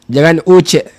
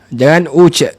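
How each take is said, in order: Both takes have the same delivery.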